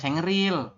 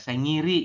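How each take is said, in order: First: The l stays at the end of the word. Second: The l links forward as r, ending on i. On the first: The speaker calls it wrong. "Bukan sengeril" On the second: The speaker calls it right. "Iya, sengiri ya"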